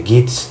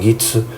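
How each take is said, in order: First: Gits ending on "ts"; pronúncia preferida. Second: Gitsu with a final U; pronúncia japonesa. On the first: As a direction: say Gits without a final U. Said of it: "eu falo". (Gits sem U no final) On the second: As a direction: say Gitsu Japanese-style, ending "-tsu". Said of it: "não Gitsu". (Gitsu com U no final) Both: Shown as a demonstration.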